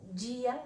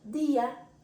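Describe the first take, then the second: First: It starts with a softened j-like sound. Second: It starts with a plain hard d sound. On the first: This is the Portuguese way. The speaker calls it wrong. "y no día, igual que en portugués" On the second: This is the Spanish way. The speaker calls it right. "decimos día"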